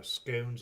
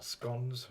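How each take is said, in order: First: "scones" with a long O; long-vowel scones. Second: "scones" with a short O; short-vowel scones. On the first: Vlogger offering regional options, "scones" with long O. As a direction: say "scones" to rhyme with stones. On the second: Vlogger offering regional options, "scones" with short O. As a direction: say "scones" to rhyme with gones. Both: Shown as a demonstration. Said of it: "however you pronounce it".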